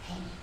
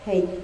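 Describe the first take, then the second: First: It is said in a whisper. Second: It is said at normal volume.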